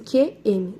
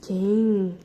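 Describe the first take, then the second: First: The M is said as a separate letter name. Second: The M is blended into one nasal syllable. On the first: The speaker calls it wrong. "muitas crianças leem assim" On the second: The speaker calls it right. "Não, é que, hum, quem"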